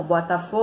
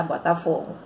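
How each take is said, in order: First: Botafogo with the "fo" stretched out long; prolonged stressed syllable. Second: Said in the usual way. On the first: Shown as a demonstration. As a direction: hold the "fo" in Botafogo like a football chant. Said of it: "essa sílaba que se prolonga". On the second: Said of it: "A gente pronuncia como".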